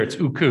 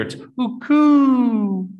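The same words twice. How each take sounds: First: Said in the usual way. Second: Uku drawn out slow on a much higher pitch; "uku" held long and pitched up to mean way over there; stretched uku for far away. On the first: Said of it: "if it's just over there". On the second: Shown as a demonstration. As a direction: sing "uku" high and long to point far off. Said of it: "if it's way over there".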